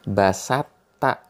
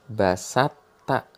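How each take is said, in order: Both takes have the same delivery.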